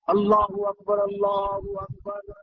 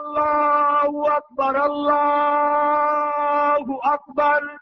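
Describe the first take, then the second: First: It is said softly and quietly. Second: It is said loudly and forcefully.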